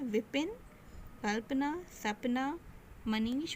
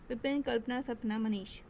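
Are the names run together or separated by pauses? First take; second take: separated; run together. First: Short pauses separate each of the names. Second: The names run together without pauses between them. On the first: They are the names of different people. The speaker calls it right. "जब हम अल्पविराम लगा देंगे" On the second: It is hard to tell what is meant. The speaker calls it wrong. "अल्पविराम हम नहीं लगाएंगे तो कैसा लगेगा? सुनिए"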